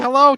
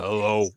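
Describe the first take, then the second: First: The voice is high and squeaky. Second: The voice is low and deep. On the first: A young boy is speaking. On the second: The boy's voice has broken after puberty.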